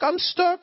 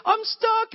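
First: Put-on high, loud little-kid whine; imitating a stuck four-year-old; squeaky kid voice stretching stuck; toddler voice. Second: Put-on very high, loud little-kid whine; imitating a stuck four-year-old; squeaky kid voice stretching stuck; toddler voice. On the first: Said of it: "he's like". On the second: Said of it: "he says".

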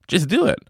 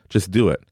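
First: "Just do it" lifted much higher with a rising end; a bright higher echo of "Just do it"; upbeat repeat. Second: Said in the usual way. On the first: Shown as a demonstration. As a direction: toss "Just do it" up high like a cheer.

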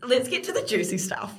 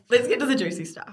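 First: Laughing. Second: Said in the usual way. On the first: Real, not acted.

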